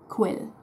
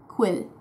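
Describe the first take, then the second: The two takes are said the same way.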